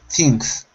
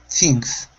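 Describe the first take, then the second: No difference in how they are said.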